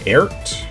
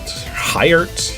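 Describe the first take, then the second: First: The name begins without an H sound. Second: The name begins with an H sound.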